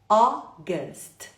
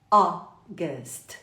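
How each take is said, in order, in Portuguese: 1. A primeira vogal é um 'o' aberto. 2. A primeira vogal é um 'o' aberto.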